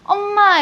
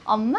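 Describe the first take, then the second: First: It has a Busan dialect pitch pattern. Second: It has a standard Seoul pitch pattern. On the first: The speaker is from the local region. "우리는 엄마 이렇게 부르는데" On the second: The speaker is from the other region. "저쪽에는 엄마 이렇게 부르잖아요"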